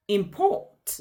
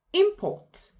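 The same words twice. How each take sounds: First: "import" stressed imPORT; weight on PORT in "import"; stress on second syllable. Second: "import" with a high first syllable, IMport; stress on first syllable. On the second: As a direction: punch IM in "import". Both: Shown as a demonstration. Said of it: "stress emphasizes on a word".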